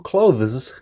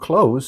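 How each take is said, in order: First: The th sound is clearly pronounced. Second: The th sound is dropped, sounding like close. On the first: The speaker calls it wrong. "The incorrect pronunciation was with the word clothes" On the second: The speaker calls it right. "it sounds like close"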